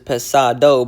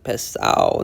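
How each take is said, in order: First: The d sound in the middle is pronounced. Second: The d sound in the middle is dropped. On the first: "What the word really is is pesado" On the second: "but they say pesao, like pesao"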